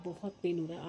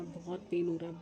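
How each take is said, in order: First: Talking through tooth pain. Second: Barely moving the mouth, in pain; talking through tooth pain. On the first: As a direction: repeat it through sore teeth. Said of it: "आवाज़ भी नहीं निकल रही". (दर्द में धीमी आवाज़ में दोहराना) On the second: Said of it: "कितना स्लो बोल रही हूँ मैं". (दांत के दर्द में धीरे धीरे बोलना) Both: Real, not acted.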